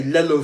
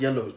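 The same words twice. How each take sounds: First: "lello", yellow with an L replacing the Y; dad's mispronunciation. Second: Said in the usual way. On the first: Retold or imitated. Son imitating dad who can't say yellow, "lello" with an L. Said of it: "but he will say". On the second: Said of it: "cannot say the word yellow".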